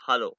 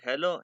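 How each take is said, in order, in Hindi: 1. पहला स्वर 'ah' जैसा है। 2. पहला स्वर 'eh' जैसा है। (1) "ये है हालो" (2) "इट इज़ नॉट हेलो"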